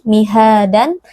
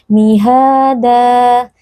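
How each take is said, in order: First: It ends with an added n sound. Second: It ends in a long a vowel. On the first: The speaker calls it wrong. "tidak dibaca dengan tanwin" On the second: The speaker calls it right. "dibaca panjang dua harakat"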